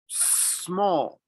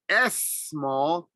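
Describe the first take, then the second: First: The word starts directly with the 's' sound. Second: An extra 'es' sound comes before 'small'. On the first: The speaker calls it right. "no S, but just mouth closed" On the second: The speaker calls it wrong. "I didn't say S small"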